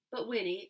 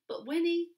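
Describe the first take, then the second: First: Said in the usual way. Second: A too-high, loud start on "Winnie"; "But Winnie" launched high and loud before the retake; a stumbling first take, pitched high; overshot start. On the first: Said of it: "corrected retake". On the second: A narrator's reading. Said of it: "misread start, retaken".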